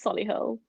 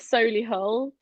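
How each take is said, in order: First: The name is said in a plain, ordinary way. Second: The name is said in a posh, affected way. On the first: This is the normal way to say it. The speaker calls it right. "but it's Solihull" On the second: The speaker is trying to sound upmarket. The speaker calls it wrong. "Some people in Solihull like to call it Solihull"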